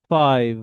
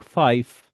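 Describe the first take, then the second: First: FIVE ending in a buzzing V; stressed FIVE with a long voiced V at the end; corrected V ending. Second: FIVE ending in a voiceless F; FIVE cut off with F instead of V; common mistaken five. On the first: Teacher corrects most learners' mistake, strong V. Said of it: "V sound". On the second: Teacher shows how most of us speak, F ending. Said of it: "P, we generate sound". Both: Shown as a demonstration.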